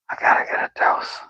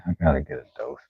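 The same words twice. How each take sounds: First: Whispered repeat, fast; a quick conspiratorial whisper. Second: Said in the usual way. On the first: Shown as a demonstration. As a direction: breathe it out, quick and hushed.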